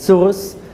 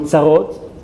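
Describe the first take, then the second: First: It is said with a Yiddish accent. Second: It is said with a Hebrew pronunciation. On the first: "They say it in a Yiddish accent" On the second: "what we call in, in Hebrew"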